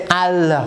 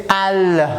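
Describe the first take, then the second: The two takes are said the same way.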